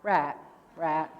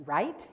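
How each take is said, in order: First: "Rat, rat" with the I flattened to a short ah, no glide; Southern flat I. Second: "right" with a full long I glide, rye-eet; standard long I. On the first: Retold or imitated. Speaker imitating how the Alabama audience says "Rat", flat I. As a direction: mimic the locals saying "Rat" for right. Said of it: "You say what?". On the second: Shown as a demonstration. Speaker showing her own "right" to the audience, long I. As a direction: say "right" with the diphthong clearly gliding. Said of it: "you guys don't have a long I".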